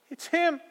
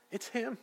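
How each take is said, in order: First: High, loud joyful exclaim; excited cry. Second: Awed hush. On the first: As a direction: burst out with the discovery. Mary's realization, now exclaimed. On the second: Mary's awed realization. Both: Acted.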